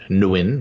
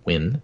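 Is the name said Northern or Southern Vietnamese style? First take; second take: Northern; Southern. First: The name has a Northern Vietnamese pronunciation. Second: The name has a Southern Vietnamese pronunciation. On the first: "which is more northern" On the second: "I pronounce it the Southern Vietnamese style of Nguyen"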